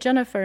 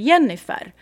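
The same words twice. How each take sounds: First: The name is said with English pronunciation. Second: The name is said with Swedish pronunciation. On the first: "you don't say Jennifer in Sweden" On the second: "You say Jennifer"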